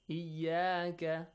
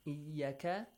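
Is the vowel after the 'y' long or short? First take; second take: long; short. First: The vowel after the y is long. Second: The vowel after the y is short. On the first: The speaker calls it right. "We have an alif there" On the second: The speaker calls it wrong. "it means you're producing a short vowel sound with ya"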